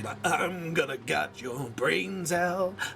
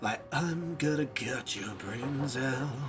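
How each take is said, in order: First: It is said in an angry, forceful tone. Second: It is said in a sinister, menacing tone. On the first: "or you gotta go angry" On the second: "you either have to say sinisterly"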